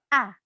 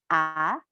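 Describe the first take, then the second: First: The pitch falls sharply and firmly. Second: The pitch rises slightly and stops. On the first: "seperti orang marah atau tegas" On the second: "Nada kedua itu naik sedikit"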